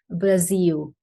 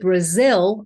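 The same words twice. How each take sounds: First: The final L sounds like a U vowel. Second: The final L is a dark L. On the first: The speaker calls it wrong. "with like a little U" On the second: The speaker calls it right. "I would say it with a dark L"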